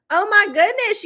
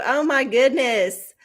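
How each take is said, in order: First: "Oh, my goodness" jumps up high, stressing "my"; sudden high sympathetic gasp of surprise; surprised. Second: Said in the usual way. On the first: Real, not acted. Host hears a viewer lost power, high surprised exclamation.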